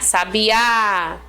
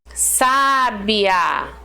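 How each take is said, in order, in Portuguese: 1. A tônica está na última sílaba. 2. A tônica está na primeira sílaba. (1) "Oxítonas é quando a gente acentua a última sílaba, como é o caso aqui, ó, de sabiá" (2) "o acento faz toda a diferença"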